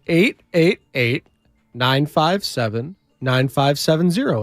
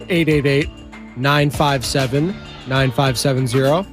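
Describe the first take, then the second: First: The number is said slowly. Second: The number is said fast.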